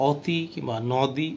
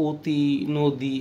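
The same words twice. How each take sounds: First: "অতি" আর "নদী" খোলা স্বাভাবিক অ দিয়ে বলা, ও-এর মতো নয়; "অতি কিংবা নদী" বলো বিস্তৃত ঠোঁটে খোলা অ-তে; ভুল স্বাভাবিক অ. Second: "অতি" আর "নদী" শব্দে অ উচ্চারণ হবে ও-এর মতো: ওতি, নোদী; "অতি" আর "নদী" বলো ঠোঁট গোল করে সংকুচিত অ দিয়ে; সংবৃত অ উচ্চারণ. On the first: (শিক্ষকের ভুল উচ্চারণের নমুনা, খোলা অ দিয়ে "অতি", "নদী") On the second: (ঠোঁট সংকুচিত করে "অতি" আর "নদী" ও-এর মতো বলা) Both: Shown as a demonstration. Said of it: "এটা কিন্তু আমরা অতি কিংবা নদী উচ্চারণ করছি না".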